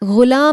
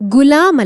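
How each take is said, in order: First: The word begins with a soft throaty gh. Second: The word begins with a plain hard g. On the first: The speaker calls it right. "അതിന്റെ അടിയിൽ ഒരു കുത്തുണ്ട്, ഗ ഗുലാം എന്ന് പറയണം" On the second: The speaker calls it wrong. "ഗുലാം അല്ല"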